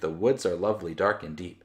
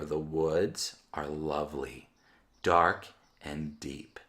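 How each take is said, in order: First: It is read quickly. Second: It is read slowly.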